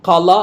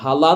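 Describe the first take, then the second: First: The word starts with a harsh kh sound. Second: The word starts with a soft h sound. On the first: The speaker calls it right. "ഖല ആയി പോകും" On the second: The speaker calls it wrong. "ഹല എന്നല്ല"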